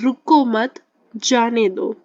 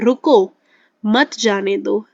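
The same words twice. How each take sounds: First: The pause comes after the second word. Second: The pause comes after the first word. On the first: Don't stop, let it go. "अब पहले sentence क्या है कि" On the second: Stop, don't let it go. "अगर यहाँ होता तो हम कैसे पढ़ते हैं"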